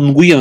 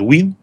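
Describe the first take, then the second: First: The name starts with ng and has two syllables. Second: The name starts with w and has one syllable. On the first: This is how the name is read locally. "Нгуен это у нас так как бы читают" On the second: This is how the family calls itself. "они себя называют Уин"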